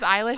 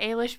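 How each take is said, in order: First: The name is said in its common pronunciation. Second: The name is said in an Irish-style pronunciation. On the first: This is how the name is commonly said. "but it is Eilish" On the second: The name's Irish origin is respected. "I say Eilish because it's an Irish name"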